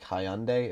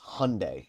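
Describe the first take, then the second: First: The word is said just as it is spelled. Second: The word is said differently from its spelling. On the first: The speaker calls it wrong. "even though it looks like Hyundai" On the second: The speaker calls it right. "it's actually pronounced Hyundai"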